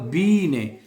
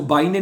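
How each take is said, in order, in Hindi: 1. पहला स्वर 'bee' में 'ee' जैसा बोला जाता है। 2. पहला स्वर 'bite' में 'ai' जैसा बोला जाता है। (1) "जहां पे आई ई इकट्ठा आता है ना, उसको हम जर्मन जुबान में ई प्रोनाउंस करते हैं" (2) "या इसको बाई ने नहीं पढ़ना"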